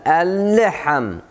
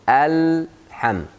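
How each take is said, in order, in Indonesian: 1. Huruf lam ditekan dan memantul dengan tambahan vokal. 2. Huruf lam langsung mengalir ke bunyi berikutnya. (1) "waktu keluar dari lam jangan tekan ya. Jangan alham, alle" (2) "Langsung alham"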